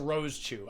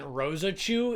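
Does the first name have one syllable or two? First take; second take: one; two. First: The first name ends without an extra vowel. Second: The first name has an extra vowel at the end. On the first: The speaker calls it right. "it's just Rose Chu" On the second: The speaker calls it wrong. "I always pronounce it Rosa Chu, but there's no uh. I'm adding a, a vowel to it"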